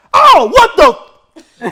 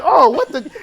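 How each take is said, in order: First: Sudden, high, very loud yelp; retold yell. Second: High, loud, shocked and laughing; startled laughing. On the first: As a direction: shout it right into someone's ear. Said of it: "He yells it in my ears". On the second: Retold or imitated. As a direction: react in shock through a laugh. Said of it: "I'm like".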